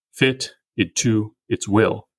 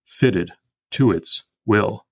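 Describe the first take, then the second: First: Slow, "will" stressed; iambic reading. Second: Slow, "to" stressed; FIT-ted TO its WILL, slowly; trochaic reading. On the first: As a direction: fit IT to ITS WILL, slow and even. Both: Shown as a demonstration. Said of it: "three ways to read this".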